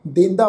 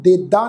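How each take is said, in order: First: ਦੇਂਦਾ with a nasal n sound before the second d; nasalised first vowel. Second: ਦੇਦਾ with a purely oral first vowel, no n sound; without nasal. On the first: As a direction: hum the first vowel of ਦੇਂਦਾ through the nose. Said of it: "ਦੇਂਦਾ ਪੜ੍ਹਾਂਗੇ". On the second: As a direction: drop the nasal before the second d in ਦੇਦਾ. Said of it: "ਇਹਨੂੰ ਦੇਦਾ ਨਹੀਂ ਪੜ੍ਹਨਾ". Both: Shown as a demonstration.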